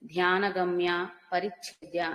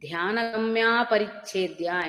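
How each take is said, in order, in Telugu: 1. ఇది రెండు వేరు పదాలుగా విడదీసి చదువుతారు. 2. ఇది ఒకే కలిపిన పదంగా చదువుతారు. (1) "విడతీసి చదవకూడదు" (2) "రెండూ కలిసి"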